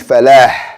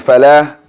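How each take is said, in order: First: The final H sound is strong and audible. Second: The final H sound is weak or missing. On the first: The speaker calls it right. "it should be falah. You should hear that uh, H sound" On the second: The speaker calls it wrong. "saying falah"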